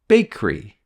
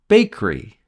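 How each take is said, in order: First: The middle sound is dropped. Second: The middle sound is dropped.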